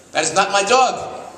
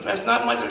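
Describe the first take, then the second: First: Put-on high, slow, indignant old lady; old lady's protest. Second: Put-on squeaky high old lady insisting; indignant old lady. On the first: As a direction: play a shocked old woman denying the dog. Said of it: "Mister Goldberg says". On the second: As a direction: push up into a shrill old woman's protest. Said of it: "She's not".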